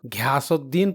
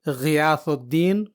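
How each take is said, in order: First: It begins with an aspirated hard g stop. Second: It begins with a throaty gh fricative. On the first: The speaker calls it wrong. "घियासुद्दीन पढ़ते हैं, जो कि सरासर गलत है" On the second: The speaker calls it right. "बल्कि इसे गियासुद्दीन पढ़ना होगा"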